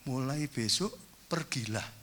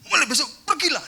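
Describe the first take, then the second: First: It is said flatly, without much intonation. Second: It is said with a raised, high pitch. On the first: "ditulis dong, diusir aku ya" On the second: "nadanya sudah tinggi"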